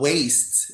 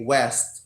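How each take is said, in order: First: The vowel is a long 'ay' sound. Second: The vowel is a short 'eh' sound.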